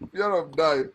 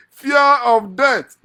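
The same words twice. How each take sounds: First: Said in the usual way. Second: Long, high, booming cry; hugely drawn-out, raised-pitch outburst; loud exclamation. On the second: Acted. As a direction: stretch it out as a loud mock-dread cry. Mock dread, exclaiming the phrase.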